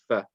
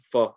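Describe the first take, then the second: First: The fa sound is light and thin. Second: The fa sound is heavy and thick. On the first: The speaker calls it right. "instead of saying fa" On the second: The speaker calls it wrong. "They'll read fa"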